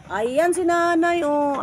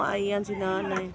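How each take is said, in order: First: Raised high call across the rocks; excited high call to grandma. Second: Said in the usual way. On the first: Real, not acted. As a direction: call out to her from a distance.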